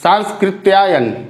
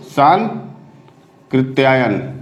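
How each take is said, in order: First: सांस्कृत्यायन read out with the half स sounded, as written; सांस्कृत्यायन said with the extra स; wrong spelling read. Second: सांकृत्यायन said slowly with no half स, syllable by syllable; slow, low model reading of सांकृत्यायन; correct pronunciation, slow. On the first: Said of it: "देखिए सांस्कृत्यायन क्या लिखा है". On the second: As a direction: sound out सांकृत्यायन carefully, dropping the स before कृ. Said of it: "क्या बोलेंगे इसको?". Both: Shown as a demonstration.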